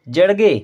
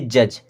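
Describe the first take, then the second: First: The ending is sounded as separate d and g. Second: The ending is sounded as a single j. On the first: The speaker calls it wrong. "जड़गे नहीं" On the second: The speaker calls it right. "इसे हम पढ़ेंगे जज"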